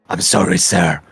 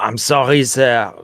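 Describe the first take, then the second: First: It is spoken without a French accent. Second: It is spoken with a French accent. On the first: The speaker calls it right. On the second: The speaker calls it wrong.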